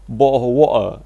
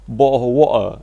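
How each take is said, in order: First: The t sounds are replaced by glottal stops. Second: The t sounds are replaced by glottal stops.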